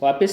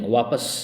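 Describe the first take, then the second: First: The second vowel sounds like 'i'. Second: The second vowel sounds like 'a'. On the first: The speaker calls it wrong. "वापिस नहीं" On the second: The speaker calls it right. "वापस सही है"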